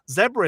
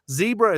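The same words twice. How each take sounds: First: It is said with a British pronunciation. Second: It is said with an American pronunciation. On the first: This is how the speaker says it. "Zebra is what I say" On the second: This is how the speaker's wife says it. "Zebra is what my wife says"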